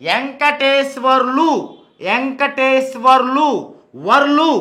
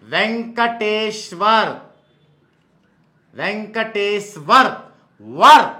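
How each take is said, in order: First: వెంకటేశ్వర్లు slowly with rising final 'lu'; వర్లు running r into 'lu'; contrasting pronunciation demo. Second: వెంకటేశ్వర్ very slowly, then వర్ isolated; వెంకటేశ్వర్ stretched, ending on bare 'war'; slow pronunciation demo. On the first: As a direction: sound out VEN-KA-TEE-SWAR-LU, lifting the end. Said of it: "వర్లు అన్నట్లో వారు రాదు". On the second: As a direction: split off the final WAR sound. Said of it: "వార్ వస్తుంది". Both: Shown as a demonstration.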